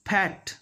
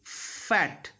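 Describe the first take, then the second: First: FAT said as "pat"; F made a P. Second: FAT with a long airy F; "fff-at" for FAT; clear F. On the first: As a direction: lips closed for a P at the start of FAT. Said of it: "But this is wrong". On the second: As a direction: teeth on lower lip, let air hiss into FAT. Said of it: "I am biting my lower lip". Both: Shown as a demonstration.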